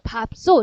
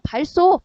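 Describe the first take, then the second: First: The first syllable ends with a b sound. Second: The first syllable ends with an l sound. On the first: This is how most people say it. "밥으로 발음을 한다는 거야" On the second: This is the form the rule would give without the exception. "리을 발음이 들어간 게"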